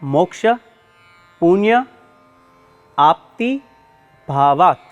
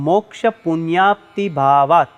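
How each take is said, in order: First: Each word is said separately with pauses between. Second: The words run together as one joined compound. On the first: "છૂટા છૂટા ચાર શબ્દો છે" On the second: "ભેગો થઈને આખો શબ્દ આ રીતે બોલાય છે"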